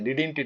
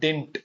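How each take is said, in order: First: The word starts with a doubled 'di' sound. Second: The word starts with a single 'di' sound. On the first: The speaker calls it wrong. "அப்படி கிடையாது. டிடின்ட் it கிடையாது" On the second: The speaker calls it right.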